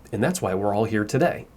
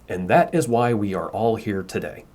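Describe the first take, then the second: First: The words are contracted into that's and we're. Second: Every word is said in full, without contractions. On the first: It is natural spoken language. The speaker calls it right. "when I was saying it aloud, I said" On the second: It is read word for word from a written script. The speaker calls it wrong. "let's say the script says"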